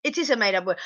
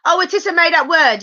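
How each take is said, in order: First: Said in the usual way. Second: Surprised realization. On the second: Real, not acted. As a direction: land hard on "is" as it dawns on you.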